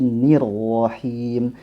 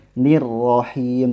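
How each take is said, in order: First: The r after the vowel sounds thick and heavy. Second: The r after the vowel sounds thin and light. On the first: The speaker calls it right. "tapi nir rohim" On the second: The speaker calls it wrong. "tidak boleh"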